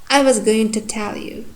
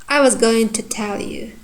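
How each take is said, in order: No difference in how they are said.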